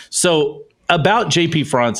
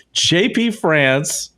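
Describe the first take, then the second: First: France said the French way with a nasal ɑ̃, "Frahnce"; J P France pronounced like the country in French; French pronunciation slip. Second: France said the English way, very slowly and deliberately; slow English correction. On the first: Real, not acted. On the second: Shown as a demonstration. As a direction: correct yourself, drawing out "J P France" in plain English. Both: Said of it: "I just said".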